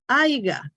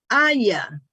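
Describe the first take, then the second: First: The word is said with a hard g sound. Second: The word is said with a soft y sound. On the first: The speaker calls it wrong. "pero muchos dicen aiga" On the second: The speaker calls it right. "es la palabra correcta"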